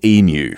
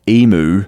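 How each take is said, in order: First: The word is said in the Australian way. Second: The word is said in the American way. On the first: The speaker calls it right. "it is emu for future reference" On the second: The speaker calls it wrong. "for our American listeners who have a tendency to pronounce that funny-looking Aussie bird"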